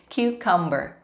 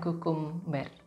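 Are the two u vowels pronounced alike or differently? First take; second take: differently; alike. First: The two u vowels have different sounds. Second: Both u vowels have the same sound. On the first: The speaker calls it right. "tapi cucumber... walaupun ada dua huruf U di situ, tapi pengucapannya... berbeda" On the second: The speaker calls it wrong. "bukan cucumber"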